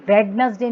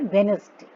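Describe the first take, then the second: First: वेडनेसडे with the D sounded, WED-nes-day; D pronounced. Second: वेडनेसडे said as WENS-day; वेडनेसडे without the D sound; silent D. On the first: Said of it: "नहीं बोलते हम". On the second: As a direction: drop the first D in वेडनेसडे. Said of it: "क्या बोलते हैं". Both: Shown as a demonstration.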